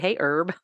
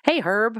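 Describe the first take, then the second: First: The h sound at the start is silent. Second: The h sound at the start is pronounced. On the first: It is the plant word, not a name. The speaker calls it wrong. "We don't say" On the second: It is a person's name. The speaker calls it right. "If it's a name, we say the H"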